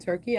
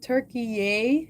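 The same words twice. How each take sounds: First: The name is said the usual English way. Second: The name is said the way locals say it.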